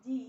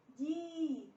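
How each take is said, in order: First: जी with a brief i; short i vowel. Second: जी with a long held ee; long i vowel. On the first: Teacher drilling the j series, short vowel in जी. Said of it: "छोटी ई की मात्रा". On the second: Teacher drilling the j series, long vowel in जी. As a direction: stretch the ee in जी. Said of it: "बड़ी की मात्रा लगेगी". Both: Shown as a demonstration.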